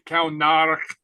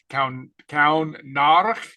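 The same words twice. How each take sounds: First: Said in the usual way. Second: Kaun Narach drawn out slowly, syllable by syllable; slow down on Kaun Narach so students can follow; slow demonstration. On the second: Shown as a demonstration. Teacher slowing the Gaelic phrase for the class, slow and careful. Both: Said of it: "the head of a snake".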